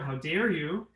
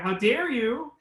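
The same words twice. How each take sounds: First: It is said at a lower pitch. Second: It is said at a higher pitch.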